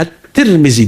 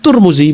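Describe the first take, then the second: First: The first two syllables use i and i. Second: The first two syllables use u and u. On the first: The speaker calls it right. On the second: The speaker calls it wrong.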